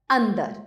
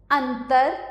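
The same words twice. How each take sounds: First: अंदर with a voiced d, falling; pronunciation demo. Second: अंतर with a clear unvoiced t, rising; pronunciation demo. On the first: Teacher closing the word pair, falling demo of अंदर. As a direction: say अंदर with द in the middle, tune down. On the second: Teacher reading a word pair to pupils, rising demo of अंतर. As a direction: say अंतर with त in the middle, tune up. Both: Shown as a demonstration. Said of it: "ये हैं दो शब्द".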